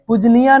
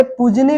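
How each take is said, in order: First: पूजनीया with a full 'yaa' ending; wrong pronunciation. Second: पूजनी ending on 'nee', without yaa; correct pronunciation. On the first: Teacher rejecting the faulty word, with extra 'yaa' ending. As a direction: add yaa to the end of पूजनीया. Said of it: "पूजनीया नहीं आए हैं". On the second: Teacher using the right word, no 'yaa' ending. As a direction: stop पूजनी at the 'nee' sound. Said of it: "होता शब्द क्या है". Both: Shown as a demonstration.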